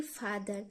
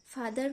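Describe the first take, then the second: First: Said in the usual way. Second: "फादर" broken as फा, pause, दर; two distinct syllables in "फादर", fa... dar; split into syllables. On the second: Shown as a demonstration. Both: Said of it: "इस प्रकार प्रोनाउंसिएट करते हैं".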